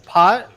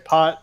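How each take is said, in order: First: The word rises like a question. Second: The word is said flat like a statement. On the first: The player is asking how much is in the pot. "like with a question mark" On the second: The player is betting the size of the pot. "when people say pot"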